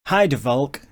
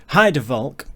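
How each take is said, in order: The two takes are said the same way.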